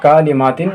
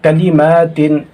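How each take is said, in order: First: कालिमातिन with ka stretched to kaa; wrong long vowel. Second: कलिमातिन with short ka, long maa; correct short vowel. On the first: Teacher showing pupils what to avoid, कालिमातिन with long kaa. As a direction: lengthen the first syllable of कालिमातिन. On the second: Teacher correcting the reading, कलिमातिन with short ka and stretched maa. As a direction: clip only ka, hold maa in कलिमातिन. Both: Shown as a demonstration. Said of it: "कालिमातिन नहीं पढ़ेंगे".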